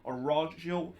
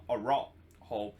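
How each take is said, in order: First: The name is said with Portuguese pronunciation. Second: The name is said with Spanish pronunciation. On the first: The speaker calls it right. "I believe that that's how you pronounce his, his name" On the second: The speaker calls it wrong. "not Araujo as the Spanish pronunciation"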